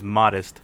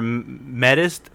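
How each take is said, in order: First: The first vowel sounds like 'oh'. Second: The first vowel sounds like 'eh'. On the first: The speaker calls it right. "The pronunciation is modest" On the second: The speaker calls it wrong. "I did mention you're a medist"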